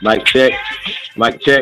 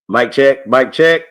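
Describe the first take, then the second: First: The voice sounds distorted with music behind it. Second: The voice sounds clean with no background music. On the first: The speaker calls it wrong. "it don't sound right" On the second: The speaker calls it right. "That's much better"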